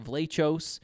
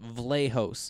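First: The middle consonant is a harsh ch sound. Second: The middle consonant is a soft h sound. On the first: The speaker calls it wrong. "It looks like Vlachos or Vlachos. There's like a CH in the middle" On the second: The speaker calls it right. "That's how you say it"

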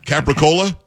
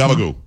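First: The word is said in a general American way. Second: The word is said in an Italian-American way. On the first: The speaker calls it wrong. "You can't say Capricola" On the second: The speaker calls it right. "That's what it is"

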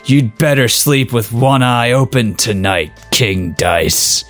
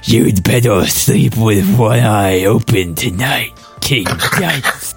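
First: It is said in the reader's own voice. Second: It is said in a Homestar Runner impression.

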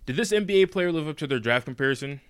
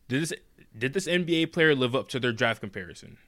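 First: It is said at a normal pace. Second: It is said more slowly.

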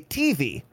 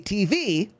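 First: The stress is on the T. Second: The stress is on the V.

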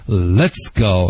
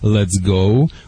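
First: It is barked out short and sharp. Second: It is said in a calm, ordinary way. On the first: The speaker calls it right. "we bark in command" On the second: The speaker calls it wrong. "We don't say"

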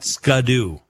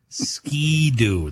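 First: The first syllable sounds like 'scu'. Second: The first syllable sounds like 'ski'. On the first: The speaker calls it wrong. "not Scudoo" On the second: The speaker calls it right. "That's how you say it"

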